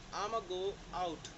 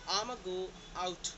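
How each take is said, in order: No difference in how they are said.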